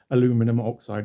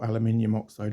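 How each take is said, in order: First: Aluminum is said with four syllables, American style. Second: Aluminium is said with five syllables, British style.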